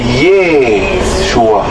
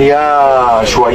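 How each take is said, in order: First: The first syllable sounds like 'ye'. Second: The first syllable sounds like 'ya'. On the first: The speaker calls it right. "dari Ye, bukan ya, itu Ye" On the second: The speaker calls it wrong.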